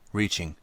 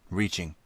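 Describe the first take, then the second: No difference in how they are said.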